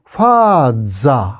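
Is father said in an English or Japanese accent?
Japanese. It is said with a Japanese-style pronunciation.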